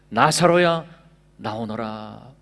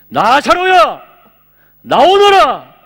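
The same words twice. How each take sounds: First: It is said quietly, without force. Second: It is said in a loud voice.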